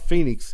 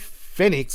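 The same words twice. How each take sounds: First: The first syllable sounds like 'fee'. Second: The first syllable sounds like 'feh'. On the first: The speaker calls it wrong. "not Phoenix" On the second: The speaker calls it right. "It's Phoenix like FedEx"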